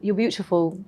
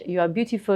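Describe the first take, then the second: First: It is spoken in a British accent. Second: It is spoken in a French accent. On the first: "British is" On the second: "if I'm being French"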